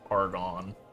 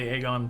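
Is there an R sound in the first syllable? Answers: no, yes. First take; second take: yes; no. First: The first syllable has an R sound. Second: The first syllable has no R sound. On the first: The speaker calls it wrong. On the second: The speaker calls it right.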